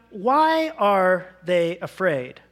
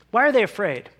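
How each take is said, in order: First: "why are they afraid" drawn out slowly, each word weighed; slow right down on "why are they afraid"; slow rhetorical question. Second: Said in the usual way. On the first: Acted. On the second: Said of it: "Now, why are they afraid?".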